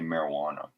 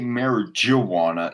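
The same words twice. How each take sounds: First: The J is silent, not pronounced as J. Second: The J is pronounced as a J sound. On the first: The speaker calls it right. "you say marijuana" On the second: The speaker calls it wrong. "you don't say marijuana"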